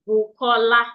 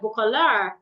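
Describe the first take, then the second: First: All syllables get equal strength. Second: One syllable is stronger than the others. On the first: This is how a native speaker says the name. "I will say it together" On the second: This is how an English speaker says the name. "if an American person wants to pronounce my name, they'll say something like"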